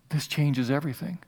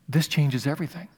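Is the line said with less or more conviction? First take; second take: less; more. First: It is said quietly, with mild conviction. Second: It is said forcefully, with strong conviction.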